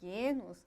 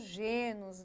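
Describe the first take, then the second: First: The word is said with its original Greek pronunciation. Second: The word is said with a Brazilian Portuguese pronunciation. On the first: "no original, que vem do grego, a pronúncia é genos, esta é a forma correta" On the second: "a gente sempre acaba aportuguesando... também é comum ouvir pessoas falando genos"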